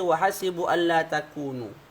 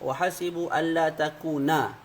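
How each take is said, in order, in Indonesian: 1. Kata terakhir berakhir dengan vokal 'u'. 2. Kata terakhir berakhir dengan vokal 'a'. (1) "ada juga yang baca dengan rafa'" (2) "dibaca dengan nasab"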